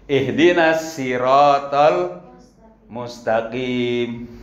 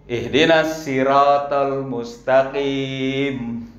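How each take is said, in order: No difference in how they are said.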